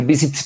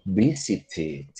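First: "visit" with a forced T cluster at the end; forma forzada. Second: "visited" slow and low, with a gentle final "-id" syllable; ED suavecita. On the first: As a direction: jam an extra T onto "visit", no added syllable. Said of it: "en vez de decir visit". ("visit" con T final forzada) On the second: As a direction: ease into the "id" ending of "visited". ("visited" despacio y suavecito, terminado en "id") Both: Shown as a demonstration.

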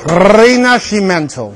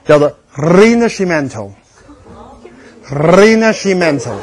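First: Rinascimento again, stress on MEN, rolled R; Italian pronunciation. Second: Rinascimento, slow, rolled R, ri-na-shee-MEN-to; Italian pronunciation. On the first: Lecturer drills students on Rinascimento, Italian pronunciation. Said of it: "就这Rin你就得学会了". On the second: Lecturer teaches students Rinascimento in Italian, slowly. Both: Shown as a demonstration.

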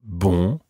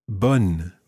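First: BON with a nasal vowel, N left silent. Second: BONNE with an open vowel and a full N; sounded N. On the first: Teacher repeating the difference between two words, nasal ending. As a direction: keep the tongue off the N in BON. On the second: Teacher repeating the difference between two words, sounded N. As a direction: finish BONNE on a clear N. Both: Shown as a demonstration. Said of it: "Listen to the difference between these two words".

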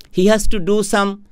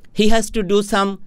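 No difference in how they are said.

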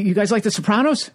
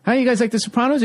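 First: Eager comic. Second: Pushier repeat. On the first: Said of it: "He goes". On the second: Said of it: "he goes". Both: Retold or imitated.

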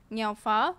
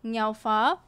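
No difference in how they are said.

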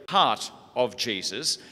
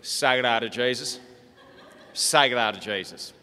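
First: "Heart of Jesus" said slowly and clearly; clear pronunciation. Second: Broad Australian rancher voice; broad Australian accent. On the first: Shown as a demonstration. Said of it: "Uncle Morris was actually saying Sacred". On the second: Retold or imitated. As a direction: chant it in a broad outback accent. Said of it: "Listen to it".

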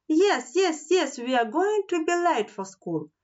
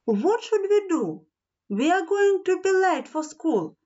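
First: High-pitched, anxious storybook cry; raised-pitch alarm at normal volume; urgent cry. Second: High-pitched storybook worry; anxious, high-voiced dismay; nervous. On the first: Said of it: "Nelly cried". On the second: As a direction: fret aloud, pitched high. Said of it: "said Nelly nervously". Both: A narrator's reading.

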